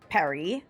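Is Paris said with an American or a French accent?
French. It is said with a native French accent. "should we be saying Paris"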